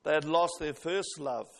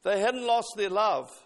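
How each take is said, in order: First: Lower, "lost" weighted and falling; stress on lost. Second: "lost" pushed out louder; stress on lost. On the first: Preacher correcting the wording, stressing "lost". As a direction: set "lost" down heavily. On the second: Preacher stressing "lost" to the congregation. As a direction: lean hard on "lost". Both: Shown as a demonstration. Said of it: "What he did say".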